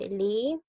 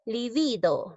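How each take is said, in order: First: "libido" broken into li, bi, do; long pauses between the syllables of "libido"; teacher syllabifying "libido". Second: Said in the usual way. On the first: Shown as a demonstration. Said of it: "De esta manera es decir". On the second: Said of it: "dice libido".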